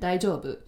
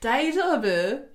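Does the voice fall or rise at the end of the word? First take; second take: fall; rise. First: The pitch falls at the end like a statement. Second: The pitch rises at the end like a question. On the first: The speaker is saying they are okay. "if you say it in a different intonation, Daijabo, that means I'm okay" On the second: The speaker is asking if someone is okay. "Daijabo is, are you okay?"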